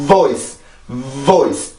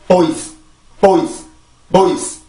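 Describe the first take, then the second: First: "voice" opened with a long buzzed v; correct English V. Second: "voice" begun with a plain Korean ㅂ, no buzz, like "boice"; wrong, V missing. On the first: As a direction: build up the v friction, then release into "voice". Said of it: "앞에 그 v". ("voice" 앞에 v 소리를 길게 넣어서) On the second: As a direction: say "voice" as boice, dropping the v friction. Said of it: "이런 게 아니라". ("voice"를 v 진동 없이 "보이스"처럼) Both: Shown as a demonstration.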